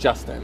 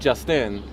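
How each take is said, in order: First: The stress is on the first syllable. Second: The stress is on the second syllable. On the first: "Justin is trochaic because it's trochee" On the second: "it'd be like an I am"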